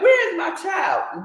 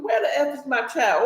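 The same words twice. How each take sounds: First: Mother shouting for her stolen child, a retold frantic yell. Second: Said in the usual way. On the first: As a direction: yell it like a panicked mother hunting for her baby. Retelling a mother's frantic cry. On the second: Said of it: "But that's not what she said".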